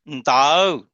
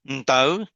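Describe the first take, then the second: First: The tone is drawn out long. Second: The tone is cut short. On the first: It is used for direction. "the tone is extended" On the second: It means a piece of paper. "very short"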